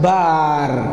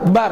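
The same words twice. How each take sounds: First: The vowel is drawn out. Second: The vowel is short. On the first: The speaker calls it wrong. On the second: The speaker calls it right. "yang benar"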